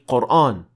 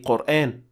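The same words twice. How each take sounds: First: The long vowel is heavy and full. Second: The long vowel is light and thin. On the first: The speaker calls it wrong. "you cannot say Qur'an" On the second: The speaker calls it right. "you must say Qur'an"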